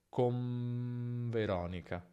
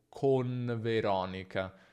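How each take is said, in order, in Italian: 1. La n si fonde in un suono simile alla m prima della v. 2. Un suono n pieno e separato prima della v. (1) "Non è necessario separare e dire una vera N" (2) "non dire con Fabrizio o con Veronica"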